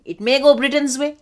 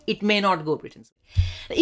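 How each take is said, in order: First: "may go" lifted high and louder, rising tune; hopeful alternative. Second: Slow "may not", falling away at the end; falling counterpart. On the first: Podcaster punning on the Prime Minister's name, raised "may go". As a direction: raise "may go Britain's way" as one possibility. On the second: Podcaster punning on the Prime Minister's name, slow falling "may not". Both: Shown as a demonstration. Contrasts two outcomes of "May.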